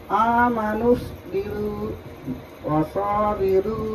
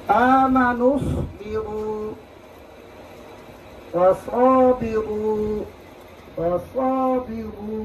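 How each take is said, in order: First: Slow recitation, r of বিরু wrongly light and thin; thin recited r. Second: Slow recitation, final r of বিগু thick and rounded; heavy recited r. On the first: Teacher shows the common mistake in the verse, thin r. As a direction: chant ওয়াসাবিরু drawn out, with a thin r. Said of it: "এটা আবার চিকন করা যায় কিভাবে?". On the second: Teacher recites the verse for students, heavy r. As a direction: chant ওয়াসাবিগু drawn out, with a full heavy r. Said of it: "এরূপ মোটা হচ্ছে না?". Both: Shown as a demonstration.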